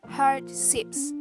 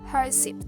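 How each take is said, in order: First: The d sound in the middle is pronounced. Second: The d sound in the middle is dropped.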